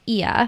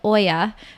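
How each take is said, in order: First: The name begins with an 'ee' sound. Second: The name begins with an 'oy' sound. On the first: The speaker calls it right. "it's pronounced Ia" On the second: The speaker calls it wrong. "which I used to pronounce wrongly. I used to call it"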